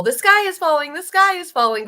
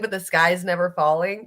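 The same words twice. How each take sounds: First: High loud mock alarm; mock panic. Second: Said in the usual way. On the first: Mocking politicians crying wolf, high and loud mock panic. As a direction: cry it like a panicky chicken. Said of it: "It's like the whole".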